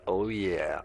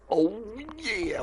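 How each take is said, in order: First: Said in the usual way. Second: Much higher, silly cartoon voice; put-on high voice. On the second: Shown as a demonstration. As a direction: pitch it way up as a goofy character.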